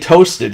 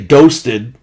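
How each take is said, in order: First: The word begins with a T sound. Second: The word begins with a D sound. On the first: "wouldn't say toasted" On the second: "He would say doasted"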